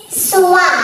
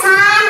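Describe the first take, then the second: First: "swan" said as soo-wah, no final n; taught pronunciation. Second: Said in the usual way. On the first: Shown as a demonstration. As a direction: model "swan" as two open syllables, su-wa. (bigkasin ang "swan" na su-wa) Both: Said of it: "yung pronunciation sa sun is".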